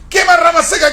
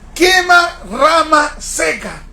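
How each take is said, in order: First: The phrase is said quickly and run together. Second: The phrase is said at a normal pace. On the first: "Ahora dilo más rápido" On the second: "Repite conmigo"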